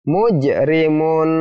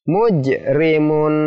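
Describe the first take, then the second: Both takes have the same delivery.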